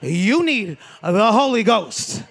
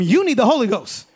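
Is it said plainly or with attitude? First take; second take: attitude; plainly. First: It is said with a sassy grandmother's attitude. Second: It is said plainly, without attitude.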